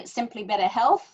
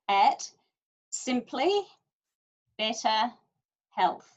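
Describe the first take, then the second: First: The phrase is said quickly. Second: The phrase is said slowly. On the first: The speaker calls it wrong. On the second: The speaker calls it right.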